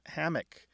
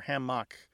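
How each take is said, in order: First: The stress is on the first syllable. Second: The stress is on the second syllable.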